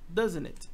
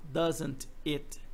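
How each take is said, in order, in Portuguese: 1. As palavras são reduzidas e ditas juntas. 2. Cada palavra é pronunciada completa e separadamente. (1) "Ele fala algo parecido com isso" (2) "ele não fala doesn't it"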